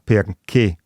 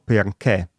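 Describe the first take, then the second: First: The final E vowel is closed. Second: The final E vowel is open. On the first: This is the standard Italian pronunciation. The speaker calls it right. "si pronuncia in italiano standard" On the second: This is a northern Italian regional pronunciation. The speaker calls it wrong. "con la E aperta"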